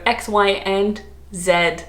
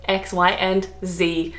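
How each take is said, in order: First: Slow "Z" said as ZED; Australian zed. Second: Slow "Z" said as ZEE; American zee. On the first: Reciting the alphabet the correct way, Australian zed. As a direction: end on "Z" pronounced zed. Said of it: "Australians should say Z". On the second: Admitting how she says the alphabet, American zee. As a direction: end on "Z" pronounced zee. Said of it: "I know it's American". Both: Shown as a demonstration.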